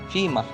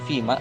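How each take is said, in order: First: The word ends with an added h sound. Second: The word ends on a vowel without h.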